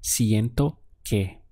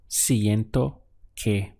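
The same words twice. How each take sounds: First: "siento que" said slowly and clearly; slow model phrase. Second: "Siento que" repeated even slower. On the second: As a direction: draw out "Siento que" slowly for learners to copy. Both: Shown as a demonstration. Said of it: "it would be".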